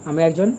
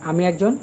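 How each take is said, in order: The two takes are said the same way.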